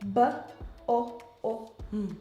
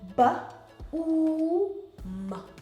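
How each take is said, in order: First: The two O's are sounded separately. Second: The two O's are sounded as one. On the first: The speaker calls it wrong. "if I was gonna break up the words" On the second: The speaker calls it right. "because they're together and we made them one"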